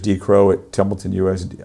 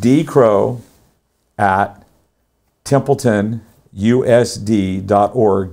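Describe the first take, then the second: First: It is said at a fast pace. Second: It is said at a slow pace.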